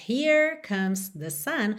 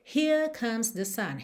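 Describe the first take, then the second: First: Rhotic American R in "Here"; "[name]" with curled American R; American accent. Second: British "Here" with no R, long vowel; "Here" as British "hee-uh", R dropped; British accent. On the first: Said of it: "ao invés de termos". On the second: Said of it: "vamos ter". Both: Shown as a demonstration.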